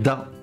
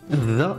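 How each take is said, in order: First: It begins with a plain d sound. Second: It begins with a voiced th sound. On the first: The speaker calls it wrong. "et non pas da" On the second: The speaker calls it right. "ذا et non pas da"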